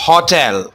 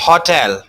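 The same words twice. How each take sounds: Both takes have the same delivery.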